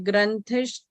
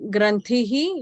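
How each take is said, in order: First: The word ends in an sh sound. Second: The word ends in an echoed h-i sound. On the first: The word is joined to the next word. "these words are combined here" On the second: The word stands alone. "when it's not combined"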